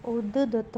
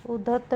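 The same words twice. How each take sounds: First: उद्दत with a held double d; correct pronunciation. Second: उदत्त with a single d; wrong pronunciation. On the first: Teacher giving the correction, उद्दत as ud-dat. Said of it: "होगा". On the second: Teacher showing a spelling error, उदत्त as u-datt. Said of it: "नहीं होगा". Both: Shown as a demonstration.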